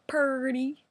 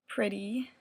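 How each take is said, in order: First: It is said in a hillbilly accent. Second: It is said in a standard accent.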